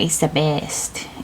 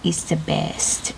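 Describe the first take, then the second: No difference in how they are said.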